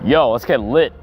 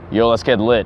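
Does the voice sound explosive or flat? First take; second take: explosive; flat. First: The voice sounds explosive and grounded. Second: The voice sounds flat and less forceful. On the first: The speaker calls it right. "it sounded a lot more explosive, a lot more grounded" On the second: The speaker calls it wrong. "talk without tagging my abdominal"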